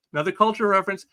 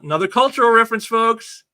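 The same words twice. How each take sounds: First: Said in the usual way. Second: Loud, fast, high aside; excited emphasis. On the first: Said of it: "repeated quieter". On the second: Real, not acted. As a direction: hammer the point home. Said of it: "repeated for emphasis".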